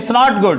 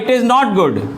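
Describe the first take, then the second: First: It is is shortened into one syllable. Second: It is said as two separate words. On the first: "shortcut में बोलें" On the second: "जैसे आपने कहा"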